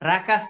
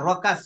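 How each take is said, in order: First: The vowel after r sounds like a thin 'a'. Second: The vowel after r sounds like a rounded 'o'. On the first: The speaker calls it wrong. "রাকাস না" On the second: The speaker calls it right.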